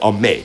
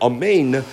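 First: The final n sound is cut off. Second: The final n sound is clearly pronounced. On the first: "He leaves out the nun. He has a silent nun" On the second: "instead of amen"

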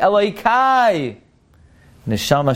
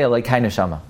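First: There is a pause between the two words. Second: The two words run together without a pause. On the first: God is addressed, then the soul is described. The speaker calls it right. "It's Elokei, kama" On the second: The soul is called God. The speaker calls it wrong. "You cannot say Elokei Neshama"

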